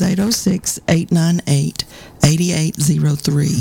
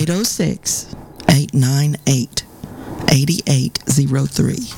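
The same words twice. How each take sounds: First: The number is said at normal speed. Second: The number is said more slowly.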